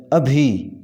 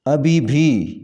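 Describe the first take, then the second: First: ابھی alone, a single "bhi": ab-hi; correct form. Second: ابھی بھی with a second "bhi" added; wrong form. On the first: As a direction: model ابھی with nothing after it. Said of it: "اس کا صحیح تلفظ ہے". (ابھی کا صحیح تلفظ، ایک ہی "بھی") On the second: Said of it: "یہ غلط تلفظ ہے". (ابھی کے بعد زائد "بھی"، غلط تلفظ) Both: Shown as a demonstration.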